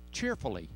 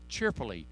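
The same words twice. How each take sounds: The two takes are said the same way.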